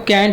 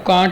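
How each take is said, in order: First: The vowel sounds American, like 'cant'. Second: The vowel sounds British, like 'cahnt'.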